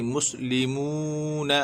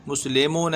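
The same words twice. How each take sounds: First: मुस्लिमून slowly, clear "li" and long "moo"; correct long vowels. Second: मुस्लिमून said as "muslemon", with e and o vowels; wrong vowel quality. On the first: Teacher correcting the error, मुस्लिमून slow with long moo. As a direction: hold the oo of मुस्लिमून, keep i pure. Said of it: "लेमून नहीं". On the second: Teacher showing the error, मुस्लिमून as "muslemon". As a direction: loosen मुस्लिमून into "muslemon" as the mistake. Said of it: "नहीं पढ़ना है". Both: Shown as a demonstration.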